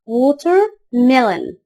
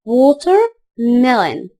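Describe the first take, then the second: No difference in how they are said.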